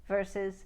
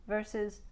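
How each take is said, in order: Both takes have the same delivery.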